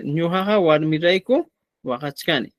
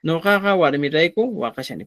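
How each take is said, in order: First: "Ñujaja" with initial ñ and "wajachkani" with the full -chka- sound; Cusco Quechua form. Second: "Nojaja" with initial n and "wajachani" with a sh-like sound, no -chka-; southern Quechua pronunciation, "wajachani" said as wa-ja-sha-ni; southern Quechua form. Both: Shown as a demonstration. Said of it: "Podría ser en quechua cusqueño y en quechua sureño".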